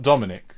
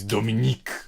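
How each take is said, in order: First: The name ends with a short 'ick' sound. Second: The name ends with a long 'eek' sound. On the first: The speaker calls it wrong. "He's not Dominic" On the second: The speaker calls it right. "He's Dominique"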